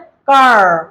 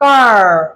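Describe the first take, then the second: First: It is said in an American accent. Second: It is said in an American accent.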